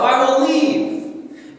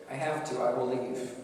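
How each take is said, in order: First: Slow, drawn-out, high and loud; God's resolve. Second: Soft resignation. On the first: God announcing he will leave, slow and loud. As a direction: stretch each word out as a painful farewell. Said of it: "He says". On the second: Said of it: "Yet God says". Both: Acted.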